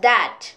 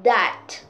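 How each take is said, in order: First: The word starts with a soft th sound. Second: The word starts with a soft th sound.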